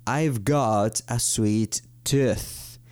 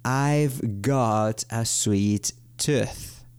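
First: "I've got a sweet tooth." said very slowly; drawn-out example for learners; slow model sentence. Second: Even slower, deliberate repetition. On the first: (ejemplo dicho muy despacio) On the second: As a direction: stretch the example out further. (repetición aún más lenta) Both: Shown as a demonstration.

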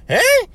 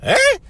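First: Sky-high comic "Huh"; piercingly high falsetto yelp; even higher squeak. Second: Sky-high squeaked "Huh"; comic falsetto yelp. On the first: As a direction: push the squeak to its very top. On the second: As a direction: squeak it way up at the top. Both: Shown as a demonstration. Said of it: "I think went higher than that".

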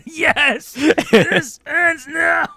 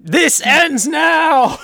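First: Very slow, high movie-hero vow; dramatic vow echoed. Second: Very slow, high, loud movie-hero vow; a hero swearing to end it all; dramatic vow. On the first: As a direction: echo the hero's vow with gravity. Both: Pretend.

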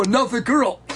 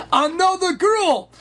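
First: Said in the usual way. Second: Put-on "Another girl" pitched high and drawn out; emphatic repetition. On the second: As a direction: stretch "Another girl" slowly on a raised pitch. News repeated for emphasis.

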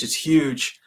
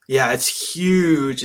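First: Said in the usual way. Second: Slow, stretched emphasis on "huge"; slow stretched "huge" with a falling end; drawn-out huge. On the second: Real, not acted. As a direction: lean hard into "huge", dragging it out. Stressing how big the wave was.

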